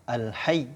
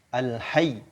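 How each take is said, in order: The two takes are said the same way.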